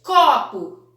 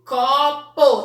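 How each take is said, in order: First: Said in the usual way. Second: "copo" loudly as có... pô, final o fully sounded; two separate beats on "copo": co, po; split into syllables. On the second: Shown as a demonstration. Teacher showing two syllables, "copo" split as co... po. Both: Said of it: "também duas sílabas".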